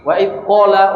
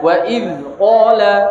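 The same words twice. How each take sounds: First: The d sound is weak and indistinct. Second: The d sound is pronounced clearly and fully. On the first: The speaker calls it wrong. "ini enggak jelas dalnya itu loh" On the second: The speaker calls it right. "harus diperjelas"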